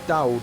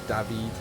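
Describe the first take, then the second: First: The W in the name sounds like W. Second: The W in the name sounds like V. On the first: The speaker calls it wrong. "either Dowd" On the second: The speaker calls it right. "I think they say W is V"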